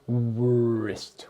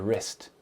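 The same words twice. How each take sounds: First: It starts with a W sound before R. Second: It starts with an R sound, no W. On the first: The speaker calls it wrong. "not wrist, which is impossible to say" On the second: The speaker calls it right. "you do not pronounce the W"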